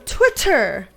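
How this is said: The middle sound is a crisp double T. The speaker calls it right. "It's a double T"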